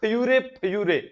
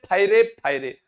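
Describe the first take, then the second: First: The word starts with a 'fyu' sound. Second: The word starts with a 'fa' sound. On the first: This is how the Bhils themselves say the war cry. "उनका वैसे होता है फयूरे फयूरे" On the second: This is how outsiders commonly say the war cry. "अपने बोलते हैं फायरे फायरे"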